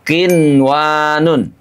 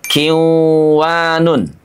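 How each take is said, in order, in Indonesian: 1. Bunyi n terdengar jelas sebelum w. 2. Bunyi n menyatu ke dalam w. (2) "tidak kiwanun"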